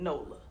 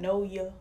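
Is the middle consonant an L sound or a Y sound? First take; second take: L; Y. First: The middle consonant is an L sound. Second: The middle consonant is a Y sound. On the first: The speaker calls it right. "That's where everybody in New Orleans, Louisiana pronounces it" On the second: The speaker calls it wrong. "Can y'all stop calling that Noya?"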